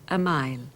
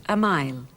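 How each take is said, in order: Both takes have the same delivery.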